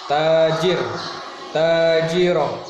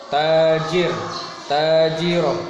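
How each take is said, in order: Both takes have the same delivery.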